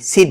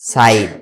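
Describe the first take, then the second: First: The vowel is a short 'i' sound. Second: The vowel is an 'eye' sound. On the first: The speaker calls it wrong. "সিড না" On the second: The speaker calls it right. "আইয়ের উচ্চারণ হবে আই"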